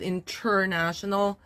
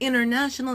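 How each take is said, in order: First: The t after n is clearly pronounced. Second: The t after n is dropped. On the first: "instead of international" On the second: "you can say international"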